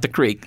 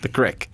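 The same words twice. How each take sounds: First: The word is said in the standard way. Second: The word is said in the local regional way. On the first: This is not what the locals call it. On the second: This is what the locals call it.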